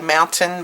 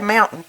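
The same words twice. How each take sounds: First: It is said in a careful, standard pronunciation. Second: It is said in a local Southern pronunciation. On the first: "I was trying to be nice and proper and say mountain" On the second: "We say mountain"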